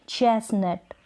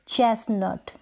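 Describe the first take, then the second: The two takes are said the same way.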